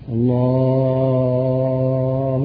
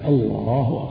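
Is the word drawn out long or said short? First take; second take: drawn out; short. First: The vowel is drawn out very long. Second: The vowel is held only a moderate length. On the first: The speaker calls it wrong. "الله يطول. هذا يكره هذا" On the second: The speaker calls it right. "لكن يقتصد الله أكبر"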